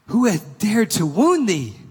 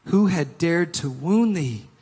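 First: Loud, high, slow outraged demand; angry giant. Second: Somewhat raised, slow anguished cry; giant's cry. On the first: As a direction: thunder it out as the furious giant. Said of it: "his face grew red with anger". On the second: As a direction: cry it out with grief and anger. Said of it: "cried the giant". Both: Acted.

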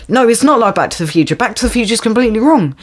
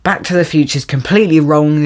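First: Rattled off fast, a mock lecture tone; quick sarcastic retort; fast mocking quote. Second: Said in the usual way. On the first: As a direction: race through it like a smug know-it-all. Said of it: "It's like". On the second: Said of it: "It's just like".

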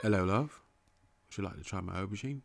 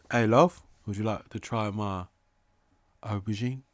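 First: Low, soft, quick British come-on; British accent. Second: Put-on British accent. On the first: Acted. Wooing a love with aubergine, soft British accent. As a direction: croon it quietly in mock-British. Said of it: "an accent that's not an American accent". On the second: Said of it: "A British boy".

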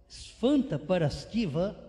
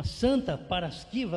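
First: "Svanta Paraskiva" with a Romanian sf sound at the start, said slowly; Romanian saint's name. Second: Said in the usual way. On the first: Shown as a demonstration. Preacher naming the Romanian saint in Romanian, slow. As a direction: give "Svanta Paraskiva" its foreign sf onset, drawn out. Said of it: "uma Santa Paraskiva é o nome dela". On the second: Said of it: "é o nome dela".

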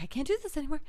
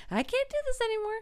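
First: Said in the usual way. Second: High, fast mock despair; mock breakdown. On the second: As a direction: blurt it higher and faster, cracking. Repeated, rising breakdown.

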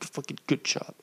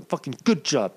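First: Whispered to himself. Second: Said in the usual way. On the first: Shown as a demonstration. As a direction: whisper the praise under your breath.

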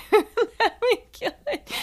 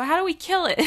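First: Laughing it out, much higher and louder; re-quoting her own line through real laughter. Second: Much higher, a touch louder, mock-innocent ask; deadpan mock question. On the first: Real, not acted. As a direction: repeat the line cracking up at yourself. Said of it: "repeats it laughing". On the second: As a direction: toss it off like a mischievous kid. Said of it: "And I go".

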